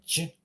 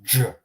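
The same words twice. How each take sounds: First: "J" soft, tongue down. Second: "j" hard, as in jet and jade. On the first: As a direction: say "J" lighter than in jungle. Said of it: "it's more like a j sound". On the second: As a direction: press the tongue up for "j". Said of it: "this wouldn't be read as a hard j". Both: Shown as a demonstration.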